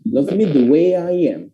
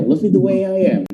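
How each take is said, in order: First: Slow "way-yai-yam", glides drawn out; slow connected demo; linked with Y, slower. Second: Quick, run together as "way-yai-yam"; brisk connected phrase; faster linked reading. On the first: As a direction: stretch the links in "the way I am". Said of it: "jadi cara bacanya". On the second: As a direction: say "Love me the way I am" fast in one breath. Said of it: "Itu akan lebih cepat bacanya". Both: Shown as a demonstration.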